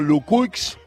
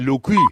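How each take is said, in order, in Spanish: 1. El sonido de la x final se pronuncia al final. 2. El sonido de la x final se omite, al estilo francés. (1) "lo pronuncio como se escribe" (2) "si lo haces más afrancesado"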